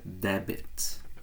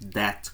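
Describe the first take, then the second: First: The b sound is pronounced in the middle. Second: The b sound is silent in the middle. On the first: The speaker calls it wrong. "a pronunciar a letra B e dizer debit, e não está correto" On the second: The speaker calls it right. "a letra B ali do meio é muda"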